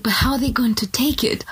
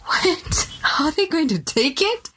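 First: Whispered worry over how it lands; anxious whisper. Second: Higher, incredulous mock of the worry; mocking repeat. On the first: Retold or imitated. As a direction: hush it like a nervous secret. Voicing a hesitant believer. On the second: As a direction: throw the fear back in disbelief.

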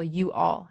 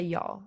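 First: "you all" as two full words; both words of "you all" kept separate; fully said words. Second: "y'all" run into one syllable; "y'all" as a single merged word; contracted form. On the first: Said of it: "pronounce words more, like, fully". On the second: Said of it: "I will never say". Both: Shown as a demonstration.

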